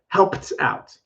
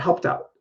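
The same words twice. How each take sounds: First: It is said slowly with a clear T. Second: It is said quickly with a light T. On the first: "it's kind of silly to say that" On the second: "if I say it quickly"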